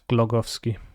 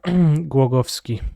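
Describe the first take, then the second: First: The sound after the G is like L. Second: The sound after the G is like W. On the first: The speaker calls it wrong. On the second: The speaker calls it right. "It's almost as if you took a W and pronounce it in English"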